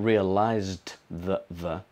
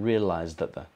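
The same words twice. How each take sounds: First: The D at the end is fully pronounced. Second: The D at the end is weakened or dropped. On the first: The speaker calls it wrong. "not realized that the" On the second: The speaker calls it right. "but realized that the"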